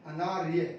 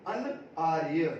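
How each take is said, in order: First: Said in the usual way. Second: अनआर्य slowly broken into two parts, अन and आर्य; word split in parts. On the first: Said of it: "अनार्य होता है". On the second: Shown as a demonstration. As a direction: draw out अनआर्य with a break after अन. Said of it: "ठीक है, अनार्य होता है". (अनआर्य को अन और आर्य में तोड़कर धीरे बोलें)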